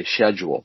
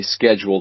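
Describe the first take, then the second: First: SCHEDULE said British-style with a soft SH; "schedule" as SHED-yool, the British way; English pronunciation. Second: Said in the usual way. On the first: Shown as a demonstration. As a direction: start "schedule" with SH instead of SK. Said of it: "She used the English pronunciation". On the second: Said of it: "when they say schedule, they say schedule".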